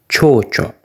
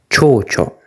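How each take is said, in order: Both takes have the same delivery.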